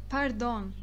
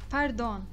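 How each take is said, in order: The two takes are said the same way.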